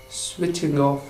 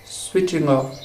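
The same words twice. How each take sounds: The two takes are said the same way.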